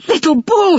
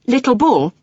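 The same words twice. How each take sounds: First: High excited shout of a name. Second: "Little Bull" spoken clearly and a bit raised. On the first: Boy shouting to the tiny Indian, high and loud. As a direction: call out his name, thrilled. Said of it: "he shouted". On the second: Boy speaking clearly to the Indian through the window. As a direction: call his name clearly. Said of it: "he said clearly". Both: A narrator's reading.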